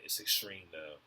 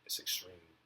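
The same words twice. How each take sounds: First: Said in the usual way. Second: Whisper. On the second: Shown as a demonstration. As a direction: whisper "It's extreme" under the breath. Repeats the phrase, then whispers it.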